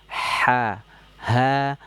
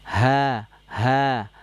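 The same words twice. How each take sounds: The two takes are said the same way.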